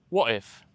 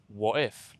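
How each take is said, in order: First: The T is dropped between the two words. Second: The T is dropped between the two words.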